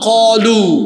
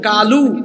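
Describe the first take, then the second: First: The first consonant is heavy and full. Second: The first consonant is light and thin. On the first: The speaker calls it right. "এটা কফ" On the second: The speaker calls it wrong. "বলতেছে কালু"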